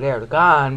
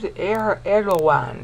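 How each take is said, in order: First: The middle consonant is a hard g. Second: The middle consonant sounds like a w. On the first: This is how the speaker would say the name. "I would call it Erdogan" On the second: This is how others say the name. "they call him. ... they pronounce the G like a W"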